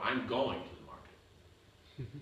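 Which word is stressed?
going. The stress is on the word going.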